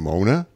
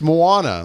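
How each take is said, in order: First: The name is said with two syllables. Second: The name is said with three syllables. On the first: The speaker calls it wrong. "so many people just saying Mona" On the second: The speaker calls it right. "I'm like, it's Moana"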